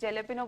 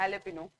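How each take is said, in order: First: The word begins with a j sound. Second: The word begins without a j sound. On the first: The speaker calls it wrong. "कौन कौन जेलेपिनो बोलता है?" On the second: The speaker calls it right. "कम से कम ये ठीक कर लो"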